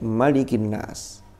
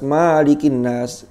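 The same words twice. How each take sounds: First: The first vowel of malikin is kept short. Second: The first vowel of malikin is drawn out long. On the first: The speaker calls it right. "Semuanya mesti pendek" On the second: The speaker calls it wrong. "keliru karena riwayat enggak ada yang membaca panjang"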